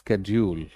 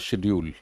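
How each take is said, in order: First: The word begins with an sk sound. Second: The word begins with an sh sound. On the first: "American English में यही आ जाता है" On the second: "standard British में"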